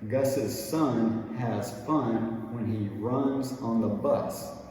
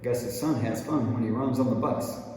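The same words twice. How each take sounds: First: The sentence is said slowly and drawn out. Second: The sentence is said quickly. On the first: "you can stretch it out by saying" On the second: "keep going a little faster and faster"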